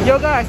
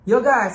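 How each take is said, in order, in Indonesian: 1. Rekaman ini dibuat di luar ruangan dengan suara angin dan lalu lintas. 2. Rekaman ini dibuat di ruangan yang tenang, agak bergema. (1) "sikonnya lagi lumayan ada banyak angin dan di samping jalanan juga" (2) "dengan kondisi sunyi dan agak bergema dikit nih di studio gua"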